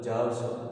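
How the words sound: The word ends with an a vowel. "ઈ ઉનું ઉચ્ચારણ અ કરે છે"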